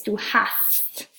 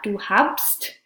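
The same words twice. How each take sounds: First: Du hast slowly with no b; correct form, slow. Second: Du habst with the b sounded; wrong form. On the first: Teacher modelling the right form for students. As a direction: du hast, drawn out and clear. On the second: Teacher showing the wrong form to students. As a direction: du habst, b kept in. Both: Shown as a demonstration. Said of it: "Notice we drop the B".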